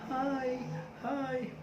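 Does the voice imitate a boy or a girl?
girl. It is said in a girl's tone.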